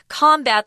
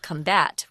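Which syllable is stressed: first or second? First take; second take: first; second. First: The stress is on the first syllable. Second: The stress is on the second syllable. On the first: It is used as a noun. "the noun is combat" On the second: It is used as a verb. "strong emphasis on the second syllable"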